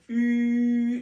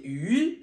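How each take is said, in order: First: The pitch stays high and level. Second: The pitch rises from middle to high. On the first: "le premier ton" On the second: "C'est le poisson"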